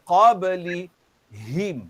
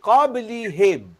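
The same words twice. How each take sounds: First: The b sound is pressed firmly and clearly. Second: The b sound is said lightly, without pressure. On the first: The speaker calls it right. "Kalau tekan dia akan bunyi bahasa baku Al-Quran" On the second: The speaker calls it wrong. "Kalau tak tekan dia akan jadi qablihim"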